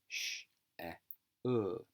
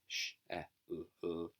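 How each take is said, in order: First: The l sound is sounded out once. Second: The l sound is sounded out twice. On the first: The speaker calls it right. "you just say it the once" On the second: The speaker calls it wrong. "You don't say"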